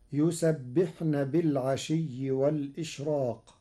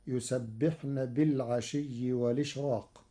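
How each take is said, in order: First: Said in the usual way. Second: والإشراق said as wa-lishraq, hamza dropped and its vowel moved onto the lam; Warsh hamza transfer. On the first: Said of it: "قرأ ورش كلمة والإشراق". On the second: Shown as a demonstration. Teacher demonstrating Warsh's والإشراق with the hamza dropped. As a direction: recite والإشراق without the hamza, lam carrying its kasra. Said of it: "فتصير".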